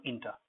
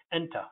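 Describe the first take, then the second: First: Inter opened with a short "ih"; wrong first vowel. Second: Enter opened with "eh", as in let; correct first vowel. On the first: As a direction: say inter with an "in" start. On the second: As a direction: say Enter with a clear "en" start. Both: Shown as a demonstration. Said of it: "Enter, not inter".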